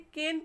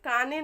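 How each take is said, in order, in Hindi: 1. 'ay' स्वर और अंतिम e साइलेंट होता है। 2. 'ah' स्वर और अंतिम e बोले जाते हैं। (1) "केन पढ़ेंगे" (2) "काने नहीं पढ़ेंगे"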